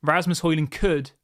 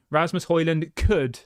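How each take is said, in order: First: Slow, weighty Rasmus Højlund could; stress on could. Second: Could leaned on slowly; stress on could. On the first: Fan on a live stream repeating it, stressing could. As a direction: land hard on could. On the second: Fan on a live stream stressing the word could. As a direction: stretch out Rasmus Højlund could. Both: Shown as a demonstration. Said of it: "emphasise the word could".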